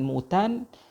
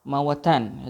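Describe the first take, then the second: First: The first vowel is a rounded u sound. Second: The first vowel is an open a sound. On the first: It refers to many deaths. "dengan baris hadapan" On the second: It refers to dead land where nothing grows. "bi fathil mim wal waw"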